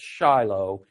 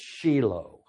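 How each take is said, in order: First: It uses the common Anglicized pronunciation. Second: It uses the original Hebrew pronunciation. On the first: The speaker calls it wrong. "it's not pronounced Shiloh" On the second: The speaker calls it right. "In Hebrew, it's Shiloh"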